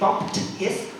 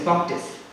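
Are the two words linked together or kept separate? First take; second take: separate; linked. First: The two words are said separately, with h. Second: The two words run together, with no h. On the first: "instead of saying bumped his" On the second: "I will connect it together"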